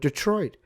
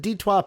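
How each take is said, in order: First: The word has an ordinary English pronunciation. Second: The word has a French-style pronunciation. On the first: The speaker calls it wrong. "I'm no longer saying the word Detroit" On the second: The speaker calls it right. "because um, it's French. So the Detroit Pistons"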